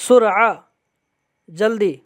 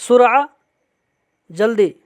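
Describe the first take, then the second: The two takes are said the same way.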